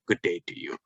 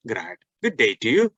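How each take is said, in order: First: Lower, softer reply. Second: Rising greeting. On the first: Teacher shows the soft reply tone. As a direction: answer low and quiet. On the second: Teacher shows how to give the greeting, rising. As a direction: end the greeting on a lift. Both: Shown as a demonstration. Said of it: "পার্থক্যটা হচ্ছে tone দিয়ে".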